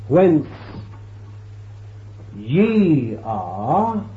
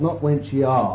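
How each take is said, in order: First: The stress is on "ye". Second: The stress is on "whence".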